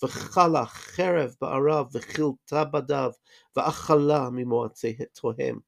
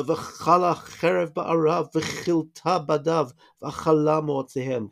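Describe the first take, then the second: First: "V'chala cherev" with throaty kh sounds; guttural ch. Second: Slow Hebrew with a guttural ch; slow Hebrew reading with a throaty ch; Hebrew recitation. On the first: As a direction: rasp the ch of "cherev" like a throat-clearing kh. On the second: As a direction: recite the Hebrew slowly, rasping each ch. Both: Shown as a demonstration. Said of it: "Can you hear the ch sound?".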